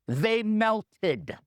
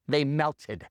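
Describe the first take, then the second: First: "melted" stretched out for impact; emphatic reveal. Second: Dropped-pitch, matter-of-fact statement; low deadpan repeat. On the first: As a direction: deliver the answer with weight on "melted". Punchline answer to "know why?. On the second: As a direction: let it sink in, pitched down. Punchline repeated for weight. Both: Real, not acted.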